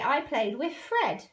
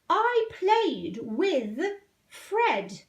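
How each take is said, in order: First: The word 'with' is pronounced carelessly, not standard. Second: The word 'with' is pronounced carefully and clearly. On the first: This is how a child might say it. The speaker calls it wrong. "supposing they weren't pronouncing brilliantly, and they did it as they say it" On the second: This is the model way to say it. The speaker calls it right. "now listen to the king"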